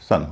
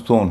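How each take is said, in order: First: The vowel is a short uh sound. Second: The vowel is an o sound. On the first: The speaker calls it right. "सन होता है" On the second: The speaker calls it wrong. "न सोन होता है"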